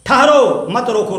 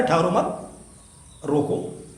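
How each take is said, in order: First: ठहरो punched loud and set apart, then मत रोको; pause after ठहरो. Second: ठहरो मत rising as one unit, long break, then a low रोको; pause after मत. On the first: Teacher showing where the comma falls, pause after ठहरो. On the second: Teacher moving the comma to change the meaning, pause after मत. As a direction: join ठहरो मत, stop, then drop softly on रोको. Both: Shown as a demonstration. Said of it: "परम विराम हो जाए".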